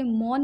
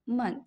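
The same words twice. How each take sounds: First: मौन with a long "maun" ending; wrong ending. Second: मन with a short "man" ending; correct short ending. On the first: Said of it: "मौन नहीं बोलना". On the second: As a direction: end the word on a short मन. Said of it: "इसको आप बोलेंगे मन". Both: Shown as a demonstration.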